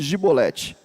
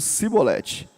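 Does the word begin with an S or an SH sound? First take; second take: SH; S. First: The word begins with an sh sound. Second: The word begins with a plain s sound. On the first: The speaker calls it right. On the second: The speaker calls it wrong.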